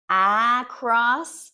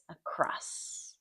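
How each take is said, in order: First: The first vowel is a full 'a' sound. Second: The first vowel is reduced to a schwa. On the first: The speaker calls it wrong. "we don't say like across" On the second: The speaker calls it right. "it becomes across"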